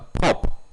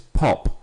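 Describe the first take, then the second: First: The P makes a harsh, booming burst of air. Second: The P sounds soft without a burst of air. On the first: The speaker calls it wrong. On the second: The speaker calls it right.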